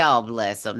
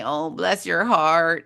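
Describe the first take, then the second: First: Genuine sympathy. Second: Slow, sugary "Oh, bless your heart" meaning the opposite; sweet on top, a dig underneath; sarcastic bless your heart. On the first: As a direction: say "Oh, bless 'em" kindly, truly meaning it. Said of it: "that's a genuine". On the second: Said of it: "that's a Southern girl's way of saying". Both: Shown as a demonstration.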